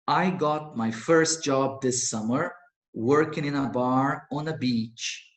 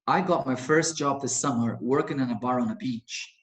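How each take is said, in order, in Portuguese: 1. A frase é lida em ritmo normal. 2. A frase é lida em ritmo rápido.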